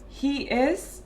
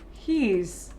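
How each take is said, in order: First: The two words are said separately in full. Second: The two words merge into one short syllable.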